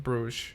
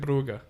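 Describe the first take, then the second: First: The name ends with a soft 'zh' sound. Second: The name ends with a hard 'g' sound. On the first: The speaker calls it wrong. "I'm pretty sure we're mispronouncing Bruges" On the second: The speaker calls it right. "It's like Brugge"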